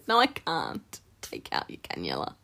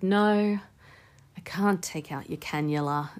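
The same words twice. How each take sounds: First: It is said with nervous laughter. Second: It is said plainly without any laughter. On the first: The speaker calls it wrong. "I laugh now" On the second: The speaker calls it right. "without the nervous laughter"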